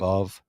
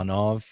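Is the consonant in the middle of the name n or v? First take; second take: v; n. First: The middle consonant is a v sound. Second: The middle consonant is an n sound. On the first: The speaker calls it right. "instead of" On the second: The speaker calls it wrong. "they were saying"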